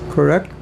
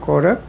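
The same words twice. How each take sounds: First: Said in the usual way. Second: Correct? with an Indian English r, like kordek; Indian English accent. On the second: Retold or imitated. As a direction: mimic Correct? the Indian way, kordek with a rising tune. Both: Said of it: "That's what they say in India".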